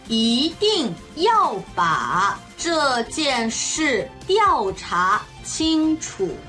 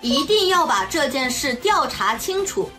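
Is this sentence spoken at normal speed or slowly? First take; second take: slowly; normal. First: It is spoken slowly. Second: It is spoken at a normal pace. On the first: "ゆっくり中国語1 回、" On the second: "中国語1 回、"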